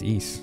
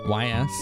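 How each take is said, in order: First: The name sounds like the word east. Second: The name is spelled out as two letters. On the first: "it's East" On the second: "Like you said the two letters separately?"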